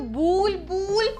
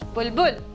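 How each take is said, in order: First: Both vowels are long and drawn out. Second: Both vowels are short and quick. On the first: The speaker calls it wrong. "खींच के बोल रहे हैं" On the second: The speaker calls it right. "दोनों ही क्या बोले जल्दी से"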